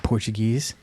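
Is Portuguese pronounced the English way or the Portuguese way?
English. It is said with an English pronunciation. The speaker calls it wrong. "when you say Portuguese, that's incorrect"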